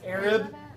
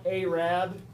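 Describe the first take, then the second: First: The first syllable sounds like 'air', then 'rib'. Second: The first syllable does not sound like 'air'. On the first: The speaker calls it right. "like air that's in that's you breathe, and rib like what's right here" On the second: The speaker calls it wrong.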